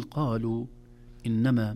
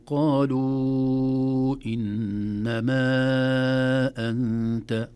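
First: قالوا إنما with short natural vowel lengths; مد طبيعي. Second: قالوا إنما with very long held endings, loud; مد زائد. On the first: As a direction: say قالوا إنما briefly, no extra stretch. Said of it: "مد طبيعي". (قالوا إنما بمد حركتين فقط) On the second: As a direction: chant and sustain "luu" and "maa" before hamza. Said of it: "من مد طبيعي إلى مد زائد". (قالوا إنما أنت بمد طويل مرتل) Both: Shown as a demonstration.

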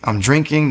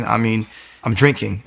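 First: Drinking said higher, with weight; emphatic repeat of drinking; stress on drinking. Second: Said in the usual way. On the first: Real, not acted. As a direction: hit drinking hard the second time.

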